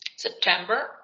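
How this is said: The ending is said with an audible r sound. "hacen una especie de R"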